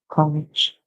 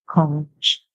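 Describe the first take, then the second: First: The word ends with a ch sound. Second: The same.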